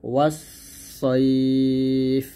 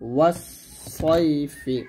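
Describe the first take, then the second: First: The word ends abruptly without the final vowel. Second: The word ends with a sounded final vowel. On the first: The recitation stops at this word. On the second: The recitation continues without stopping.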